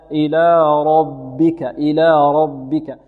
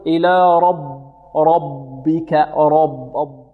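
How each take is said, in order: First: "ربك" chanted with a full r and a thin b; heavy ra, light ba. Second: "ربك" with the first b thickened like the heavy r; wrong heavy ba. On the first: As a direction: recite "ربك" slowly, lightening the b right after the heavy r. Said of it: "نفخم الراء ونرقق الباء". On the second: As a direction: say "ربك" wrongly, dark and full on the doubled b. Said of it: "فنحذر من تفخيم الباء الأولى". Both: Shown as a demonstration.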